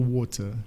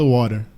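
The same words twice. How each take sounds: First: It is said in a British accent. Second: It is said in an American accent. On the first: "britânico fala water" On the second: "O americano fala water"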